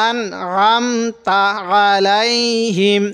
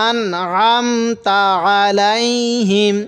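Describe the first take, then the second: The two takes are said the same way.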